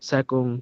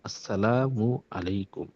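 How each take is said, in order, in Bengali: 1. সালামটি একটি ছোট, সংক্ষিপ্ত শব্দে চেপে বলা হয়। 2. সালামটি প্রতিটি সিলেবল সহ পুরোপুরি বলা হয়। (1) "সালামুকুম এভাবে কি হবে না? সালাম দিবে না।" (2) "সালাম তো দোয়া।"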